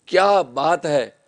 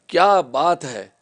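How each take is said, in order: First: It is said admiringly, in praise. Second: It is said admiringly, in praise.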